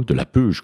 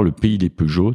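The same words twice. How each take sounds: First: "Peuge" clipped short, the final vowel of Peugeot dropped, as the locals say it; a light hint of the local Franche-Comté accent on "Peuge"; local Montbéliard pronunciation. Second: Said in the usual way. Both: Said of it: "comme ils disent là-bas avec l'accent".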